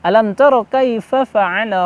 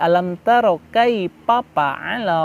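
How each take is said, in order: First: The F sound is released clearly and lightly. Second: The F sound is pressed and squeezed together. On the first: The speaker calls it right. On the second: The speaker calls it wrong.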